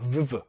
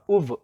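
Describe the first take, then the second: First: The prefix is said with a v sound. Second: The prefix is said as an oo vowel. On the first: The speaker calls it wrong. "그래서 발음하기 어렵죠" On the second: The speaker calls it right. "우브라고 발음하기 더 편하다"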